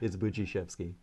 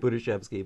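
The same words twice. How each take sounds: First: The D is blended into the following sound. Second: The D is sounded as a separate hard sound. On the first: The speaker calls it right. "but it's" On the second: The speaker calls it wrong. "You look at the D and you want to say"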